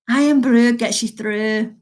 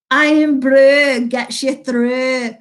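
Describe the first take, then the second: First: Slow, deliberate Scottish accent on the slogan. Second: Said in the usual way. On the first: Shown as a demonstration. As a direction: put on a Scottish accent for "Irn-Bru gets you through". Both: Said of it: "Let me accent".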